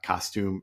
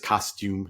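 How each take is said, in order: First: It is said with an American pronunciation. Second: It is said with a British pronunciation. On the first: "not costume" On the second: "she'll say a word in British English"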